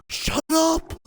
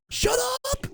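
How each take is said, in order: First: Sharp, high "Shut up" at the politicians; angry shout. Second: "Shut" yelled much higher, rising at the end; full shout. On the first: Ranting vlogger snaps at politicians, angry. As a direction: tell them off hard. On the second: Vlogger screams at politicians, furious shout. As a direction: scream it at them, losing patience. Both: Real, not acted.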